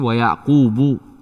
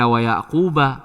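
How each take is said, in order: First: The name ends with a 'u' vowel. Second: The name ends with an 'a' vowel. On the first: The speaker calls it right. "tapi wa Yaqubu" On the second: The speaker calls it wrong. "Tidak dibaca wa Yaquba"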